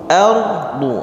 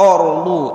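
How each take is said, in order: First: The first vowel sounds like a clear 'a'. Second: The first vowel sounds like a rounded 'o'. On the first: The speaker calls it right. "Dibacanya a" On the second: The speaker calls it wrong. "Jangan dibaca orlu"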